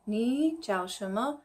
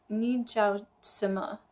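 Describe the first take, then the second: First: "ni jiao shima" said slowly with sh; slow learner's ni jiao shima with sh and rising end; "ni jiao shima" spelled out slowly, sh sound kept; careful Mandarin. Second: "ni jiao sima" slowly with s instead of sh; "ni jiao sima" in the Shanghai way, s not sh; Shanghai style. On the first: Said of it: "they don't really say the H". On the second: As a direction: drop the h: "sima" with a plain s, slowly. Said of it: "they don't really say the H in Shanghai". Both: Shown as a demonstration.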